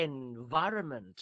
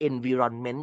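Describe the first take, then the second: First: "environment" as en-VAI-ruh-ment; correct pronunciation. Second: "environment" as en-vi-ron-men, evenly weighted; common mispronunciation. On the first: Shown as a demonstration. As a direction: punch VAI in "environment", light unstressed ending. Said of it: "สิ่งแวดล้อม อ่านว่า environment". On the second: Retold or imitated. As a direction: imitate learners saying "environment" with a full RON. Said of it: "หลายคนจะอ่านว่า environment".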